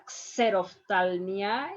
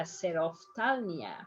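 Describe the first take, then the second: First: Xerophthalmia starting with KS; wrong pronunciation. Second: Xerophthalmia starting with plain S; softer "xerophthalmia" with X as S; correct Spanish pronunciation. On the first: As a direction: say "xerophthalmia" as "kse-rof-TAL-mia". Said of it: "It's not a xerophthalmia". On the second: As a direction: say "xerophthalmia" as "se-rof-TAL-mia", softly. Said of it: "you read a xerophthalmia". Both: Shown as a demonstration.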